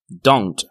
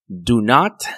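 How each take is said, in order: First: It is said as one short contracted word. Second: It is said as two full separate words. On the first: "la contracción de do not es don't" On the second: "la contracción de do not es don't"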